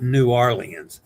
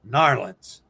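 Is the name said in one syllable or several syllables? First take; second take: several syllables; one syllable. First: Each syllable of the name is said separately. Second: The name is slurred into one short syllable. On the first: The speaker calls it wrong. "It's not New Orleans" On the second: The speaker calls it right. "They turn it into a one syllable word"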